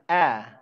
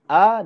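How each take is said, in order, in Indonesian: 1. Vokalnya bunyi seperti e yang lebih tertutup. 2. Vokalnya bunyi a terbuka. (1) "tidak e, tidak e. Anis suaranya tidak sempurna" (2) "Ketika saya contohkan a dengan e"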